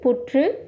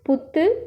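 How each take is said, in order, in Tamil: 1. நடுவில் உள்ள மெய்களில் உருண்ட r ஒலி உண்டு. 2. நடுவில் உள்ள மெய்கள் எளிய இரட்டை t. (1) "எழுத்து வழக்கு" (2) "பேச்சு வழக்கு"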